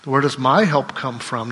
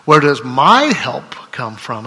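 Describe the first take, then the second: First: Said in the usual way. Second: My pressed louder and slower; slow, louder question with weight on my; stress on my. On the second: Shown as a demonstration. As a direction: lean on the word my in "Where does my help come from?". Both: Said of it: "put the emphasis on my".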